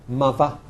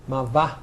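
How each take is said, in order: Both takes have the same delivery.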